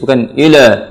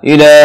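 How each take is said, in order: First: The l is heavy, with the lips rounded. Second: The l is light, with the lips smiling. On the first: The speaker calls it wrong. "Kalau bulat dipastikan itu akan tebal hurufnya" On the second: The speaker calls it right. "la tipis"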